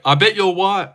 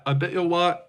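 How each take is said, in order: First: Said in the usual way. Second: Quieter, laughing through it; softer, laughing repeat. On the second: Shown as a demonstration.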